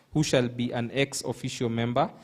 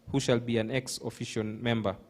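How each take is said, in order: Both takes have the same delivery.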